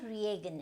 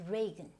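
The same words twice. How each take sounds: First: The first vowel is an 'ee' sound. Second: The first vowel is not an 'ee' sound. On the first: The speaker calls it wrong. "this is not Reagan" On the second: The speaker calls it right. "you do not have to go with this E sound"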